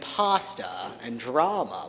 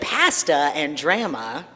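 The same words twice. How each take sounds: First: It is said with an American accent. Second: It is said with a Canadian accent.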